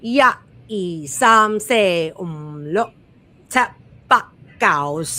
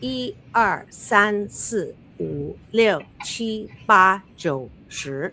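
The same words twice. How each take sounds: First: It is counted in Cantonese. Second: It is counted in Mandarin.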